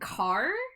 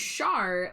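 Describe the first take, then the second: First: It starts with a k sound, like car. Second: It starts with a sh sound, like shar. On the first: "making the H silent and and just saying car" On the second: "Char like Charlotte"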